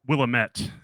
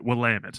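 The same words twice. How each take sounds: First: The ending does not sound like 'damn it'. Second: The ending sounds like 'damn it'. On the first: The speaker calls it wrong. "I would always call it like Willamette" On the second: The speaker calls it right. "it's like damn it, but you got to pronounce it Willamette"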